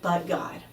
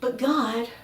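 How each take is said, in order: First: It sounds like a flat, final statement. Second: It sounds like a complaining whine.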